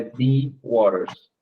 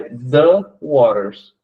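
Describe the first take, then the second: First: "the" said as "thee" with a long ee, the rejected form. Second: "the" said as "thuh", short schwa before waters. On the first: Teacher showing students the wrong form, "thee" before waters. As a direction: say "the" as "thee", as if waters began with a vowel. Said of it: "é the waters". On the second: Teacher showing students the article before a consonant, short "thuh". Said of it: "não é the waters". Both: Shown as a demonstration.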